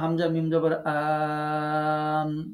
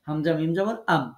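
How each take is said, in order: First: The final syllable is stretched out long. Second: The final syllable is said short and quick. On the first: The speaker calls it wrong. "একটু টেনে যদি বলি, হবে না" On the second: The speaker calls it right. "দ্রুত আপনাকে পড়তে হবে"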